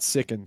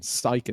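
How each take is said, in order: First: The name begins like the word 'sick'. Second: The name begins like the word 'sigh'. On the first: The speaker calls it wrong. "not Sicken" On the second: The speaker calls it right. "his name is pronounced Syken"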